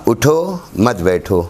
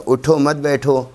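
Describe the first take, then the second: First: "اٹھو", a clear break, then "مت بیٹھو"; pause after اٹھو. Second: "اٹھو مت بیٹھو" joined in one breath, no pause; run together. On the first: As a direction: stop on "اٹھو" so "مت بیٹھو" stands apart. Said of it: "اٹھو پر رکنا ہے". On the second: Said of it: "اس کو ملا دے تو". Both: Shown as a demonstration.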